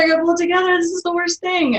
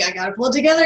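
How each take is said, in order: First: Higher and louder, the reminder going frantic; the self-talk tipping into panic; mock panic. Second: First try at calming herself, pitch rising at the end; building panic. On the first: To herself while crying at work, half-played panic. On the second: Retold or imitated. To herself while crying at work, rising worry. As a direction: mutter the reminder to herself, not yet frantic. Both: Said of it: "or you're like".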